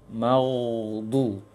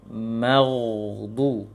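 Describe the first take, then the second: No difference in how they are said.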